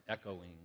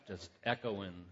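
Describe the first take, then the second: First: Softer, fading repeat of echoing; echo imitation. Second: Said in the usual way. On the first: Shown as a demonstration. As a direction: let echoing fade away like a cave echo. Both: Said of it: "I sound like I'm in a big cave".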